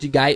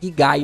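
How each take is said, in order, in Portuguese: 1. A palavra começa com som de j suave. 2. A palavra começa com som de g duro. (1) "Eu vou chamar de Jigai porque é assim como eu tô acostumado a chamar" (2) "Mas se for mais no japonês, seria ali Gigai"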